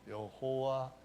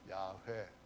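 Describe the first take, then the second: First: The name is said with three syllables, yeo-ho-wa. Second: The name is said with two syllables, ya-hwe. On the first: The speaker calls it wrong. "여호와 이렇게 발음을 하는데 정확한 발음은 아닙니다" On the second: The speaker calls it right. "좀 정확하게 발음을 달리 한다면은 야훼"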